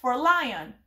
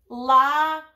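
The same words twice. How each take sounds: First: Said in the usual way. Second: Lion said louder in two clear beats, li-on; teacher modelling lion as two beats; syllable demo. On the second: Shown as a demonstration. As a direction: split lion into two chin drops for the class. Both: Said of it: "pay attention to how many times their chin goes".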